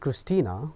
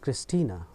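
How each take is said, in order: First: The name ends with a long 'aa' vowel. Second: The name ends with a short 'a' vowel. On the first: The speaker calls it wrong. "मैंने क्रिस्टीना पढ़ा, नहीं पढ़ना चाहिए ऐसे" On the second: The speaker calls it right. "क्रिस्टीना अ बोल रहा है, आ नहीं अंत में"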